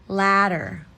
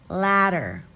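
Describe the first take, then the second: No difference in how they are said.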